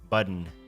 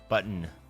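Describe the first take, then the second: The two takes are said the same way.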